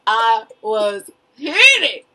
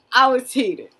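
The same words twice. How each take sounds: First: Slow emphatic. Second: Said in the usual way. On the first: Shown as a demonstration. Telling her friend how angry she got, slow and stretched. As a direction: stretch it out slowly.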